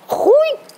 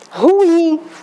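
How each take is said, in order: First: The stress falls on the first syllable. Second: The stress falls on the second syllable. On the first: The speaker calls it wrong. "mas tá errado" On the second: The speaker calls it right. "Qual é a pronúncia?"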